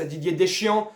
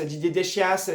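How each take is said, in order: First: Said in the usual way. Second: "Deschias" with a sounded final s, "de-SHYASS"; deliberate wrong name. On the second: Pretend. Fan scoffing at praise for the coach, "Deschias". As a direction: twist "Deschias" mockingly.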